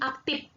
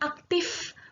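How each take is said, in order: First: The word ends with a p sound. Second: The word ends with an f sound. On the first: This pronunciation shows a regional dialect. The speaker calls it wrong. "bukan pakai P" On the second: This is the standard pronunciation. The speaker calls it right. "Jadi pakai pakai F"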